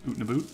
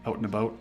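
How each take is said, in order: First: The vowels are exaggerated into a strong 'oot' sound. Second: The vowels sound mild, close to standard 'out'. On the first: This is the stereotyped way others hear Canadians. "I don't I don't say it that hard" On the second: This is closer to how the speaker actually talks. "I don't I don't know if I say it as aggressively"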